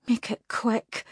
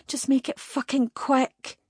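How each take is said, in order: First: Defiant. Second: Escalating defiance, pushed higher; defiant outburst. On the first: Captive defies demon. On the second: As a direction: spit the demand out, pitched up. Captive defies demon, escalating. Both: Acted.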